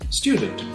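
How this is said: It is said with a British accent.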